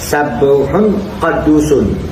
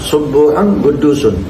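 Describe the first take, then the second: First: Both words begin with an 'a' vowel. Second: Both words begin with a 'u' vowel. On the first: It follows the expected word pattern. "Mestinya fa'ul, yakni sabuh qadus" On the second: It is the reading most people use. "kebanyakan membacanya dengan dhamma"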